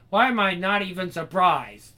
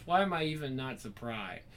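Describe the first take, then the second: First: Loud, higher, put-upon sigh of a line; exasperated and loud, hammed-up disbelief; exasperated mock outburst. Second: Said in the usual way. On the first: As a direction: throw up your hands, nobody is surprised.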